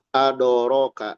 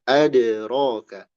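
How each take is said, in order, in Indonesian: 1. Ada vokal penuh 'o' setelah bunyi d. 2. Bunyi d dilepas tanpa vokal penuh. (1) "Jangan adoroka" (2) "tapi adraka"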